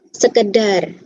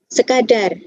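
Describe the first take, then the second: First: The second syllable has the vowel 'e'. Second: The second syllable has the vowel 'a'. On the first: The speaker calls it wrong. "kita sering melafalkan dengan sekedar" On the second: The speaker calls it right. "yang tepat adalah kata sekadar"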